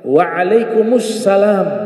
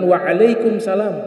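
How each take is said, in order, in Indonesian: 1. Bunyi artikel terdengar sebelum salam. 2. Tidak ada bunyi artikel yang terdengar sebelum salam. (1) "Ada alif lamnya"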